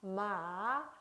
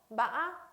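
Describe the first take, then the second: First: The pitch dips and trails off smoothly. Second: The pitch rises with a sharp break midway. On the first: "흘려주듯이 발음을 하면 되겠습니다" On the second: "약간의 상승되는 음, 그러나 꺾임이 심한 거"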